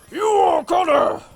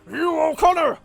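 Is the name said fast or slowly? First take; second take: slowly; fast. First: The name is said angrily at normal speed. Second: The name is said angrily and quickly.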